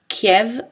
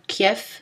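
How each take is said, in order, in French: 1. La consonne finale est un v sonore. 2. La consonne finale est un f sourd. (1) "prononcés v ou f" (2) "prononcés v ou f"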